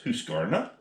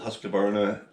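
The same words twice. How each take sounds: First: It is said with a Swedish-style pronunciation. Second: It is said with an English pronunciation. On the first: "A Swedish guy will pronounce it something completely different" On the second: "I pronounce it Husqvarna"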